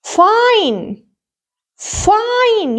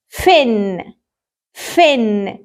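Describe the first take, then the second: First: "fine" with a drawn-out "eye" vowel, higher and falling; long I. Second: "Fin" with short i, pitched low. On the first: Teacher models the magic E word, long I. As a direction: stretch the letter-name I in "fine". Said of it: "I pronounce it as I". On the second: Teacher reads the word before adding magic E, short I. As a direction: say "Fin" with the i of "ink", lower. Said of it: "صوت ال I وهو short". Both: Shown as a demonstration.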